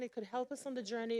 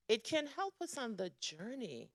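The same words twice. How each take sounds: First: It could help us on the journey said fast; fast restatement; quicker repeat. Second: Said in the usual way. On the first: Real, not acted. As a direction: rush the repeat, still leaning on help.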